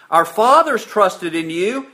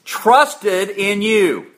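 First: Said in the usual way. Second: "Trusted in you" drawn out slowly, "trusted" leaned on; stressed verb. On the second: Shown as a demonstration. Preacher pointing his flock to the verb, slow and stressed. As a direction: stretch out "Trusted in you" and weigh down "trusted". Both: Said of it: "what's the verb?".

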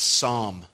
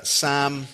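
First: Psalm said like sahm, with a long open ah and no l; American Psalm. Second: Psalm said like sam, with a short flat a and no l; Northern Irish Psalm. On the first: Shown as a demonstration. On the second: Real, not acted. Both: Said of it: "or as you say here in the States".

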